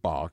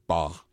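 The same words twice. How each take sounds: First: It is said the common American way. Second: It is said the way musicians say it. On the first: This is how most Americans say the name. "as most Americans would say" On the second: This is how people in the music industry say the name. "anybody really in the music industry would say"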